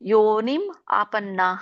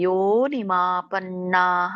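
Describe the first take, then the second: First: The two words are said separately. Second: The two words are joined together. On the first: "ಎರಡು ಪದ ಬರುತ್ತೆ" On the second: "ಕೂಡಿ ಹೇಳಿ"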